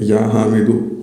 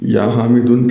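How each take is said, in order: First: The name ends in a short u vowel. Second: The name ends in a u vowel plus n. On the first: The speaker calls it right. "सिर्फ एक ज़म्मा पेश होगा" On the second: The speaker calls it wrong. "कहना गलत है"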